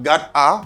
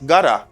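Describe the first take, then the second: First: The two words are said fully and separately. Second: The words are blended into one reduced form. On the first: "got a becomes gotta" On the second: "got a becomes gotta"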